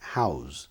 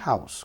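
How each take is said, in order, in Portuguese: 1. A palavra termina com som de z, vibrado. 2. A palavra termina com som de s, chiado. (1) "Se for verbo é Z, house" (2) "Se for substantivo é house, com som de S"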